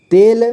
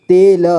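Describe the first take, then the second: First: Said in the usual way. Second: तेल split as ते, ल; syllable by syllable. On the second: Shown as a demonstration. Teacher showing learners तेल, sounded out in parts. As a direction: sound out तेल with a vowel after ल. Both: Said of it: "इसे पढ़ेंगे".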